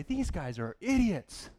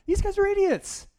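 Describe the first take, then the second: First: Slow, scornful remark; slow scornful verdict. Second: Much higher, louder exasperated cry; exasperated outburst. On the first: Young Bible reader judging the Israelites, slow and scornful. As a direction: drag it out, unimpressed. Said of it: "I used to read the story and say". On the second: Young Bible reader blurting his verdict on the grumbling Israelites, higher and louder. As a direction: blurt it out in disbelief. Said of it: "that was my thought". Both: Retold or imitated.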